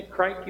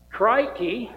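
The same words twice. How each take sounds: First: Said in the usual way. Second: Hammed-up Australian "Crikey", higher and louder; a cartoon Aussie "Crikey" in a cheesy Australian accent. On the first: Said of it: "that's a great word". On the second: Shown as a demonstration. Pastor plugging the Australian VBS theme, cheesy Australian accent. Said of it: "talk with a cheesy Australian accent".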